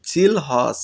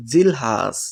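First: "জিলহজ" with a rounded "o", jil-hos; variant pronunciation. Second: "জিলহাজ" with a long open "a", jil-haas; variant pronunciation. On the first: Teacher offering the first option to memorise, variant pronunciation. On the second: Teacher offering the second option to memorise, variant pronunciation. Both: Shown as a demonstration. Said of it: "আপনি যে কোনো একটি".

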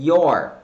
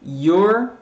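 First: Your said falling, open "ór"; English your. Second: Your said with a rising tune; English your. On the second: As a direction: say your as "or", ending on a rise. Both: Shown as a demonstration. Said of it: "sobre pronúncia de".

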